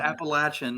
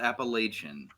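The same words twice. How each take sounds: First: The middle syllable sounds like 'latch'. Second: The middle syllable sounds like 'lay'. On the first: The speaker calls it right. "Appalachian, not Appalachian. ... if you say it wrong, I will throw an apple at you" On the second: The speaker calls it wrong.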